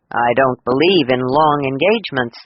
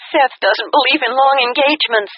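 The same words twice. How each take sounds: First: A hint of a lower male voice, assured; a touch of a man's voice, calm and sure; lightly voiced man. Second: Higher, bright daughter's voice on the phone; a higher young woman's voice, eager. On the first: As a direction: say it as the confident groom, lightly voiced. Male lead's line, lower voice. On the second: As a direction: give it as the excited bride. Daughter quoting new husband, higher. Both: A narrator's reading.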